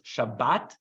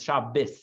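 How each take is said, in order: First: The word ends with a t sound. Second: The word ends with an s sound. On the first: "It's a t" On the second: "or a s"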